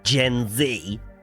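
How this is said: The letter Z is said the American way.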